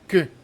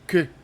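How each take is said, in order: First: The vowel is a neutral, relaxed schwa. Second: The vowel is a neutral, relaxed schwa.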